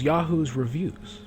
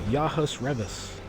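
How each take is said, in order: First: The second word sounds like 'reviews'. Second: The second word sounds like 'revis'. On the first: The speaker calls it right. "it was Yahoo's reviews" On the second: The speaker calls it wrong. "everybody says Yahus Revis"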